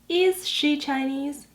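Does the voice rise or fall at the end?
rise. The voice rises softly at the end.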